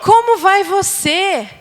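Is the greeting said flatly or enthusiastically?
enthusiastically. It is said warmly, with enthusiasm. The speaker believes what they say. The speaker calls it right. "Então vamos lá"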